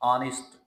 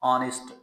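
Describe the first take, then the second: The two takes are said the same way.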